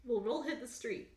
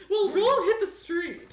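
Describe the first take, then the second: First: Said in the usual way. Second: High, loud, slow character call. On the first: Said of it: "doing a lot of similar voices". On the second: Acted. Star telling date to roll, high loud voice. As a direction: push it up high and draw it out. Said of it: "he says".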